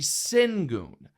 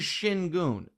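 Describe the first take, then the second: First: The first syllable sounds like sin. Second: The first syllable sounds like shin. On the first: This is how it reads from the spelling. The speaker calls it wrong. "the way it's spelled, that would be Singun" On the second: This is the player's actual name. The speaker calls it right. "His name is Shingun"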